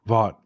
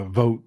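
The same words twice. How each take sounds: First: "Vought" with an open AW vowel; preferred pronunciation. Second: "vote" said with a long O; alternative pronunciation. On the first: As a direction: say "Vought" to rhyme with bought. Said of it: "It looks like Vought to me". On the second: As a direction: say "vote" to rhyme with boat. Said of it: "I've heard it pronounced different ways". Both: Shown as a demonstration.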